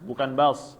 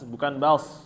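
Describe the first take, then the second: The two takes are said the same way.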